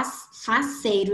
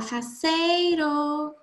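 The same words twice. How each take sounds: First: Said in the usual way. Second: Higher, drawn-out call on the word. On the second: Shown as a demonstration. Teacher calls the word to find its stressed syllable, calling out. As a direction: call it out as if summoning someone. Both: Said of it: "você pode chamar a palavra".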